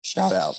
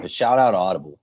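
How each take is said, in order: First: Cracked voice, breaking mid-word; voice cracking. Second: Said in the usual way. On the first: Real, not acted. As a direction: let the voice crack on it. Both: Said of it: "Wow, my voice cracked".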